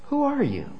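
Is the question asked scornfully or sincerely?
sincere. The question sounds sincere and genuinely curious. The asker truly wants to know the listener's identity. "in all honesty, who are you?"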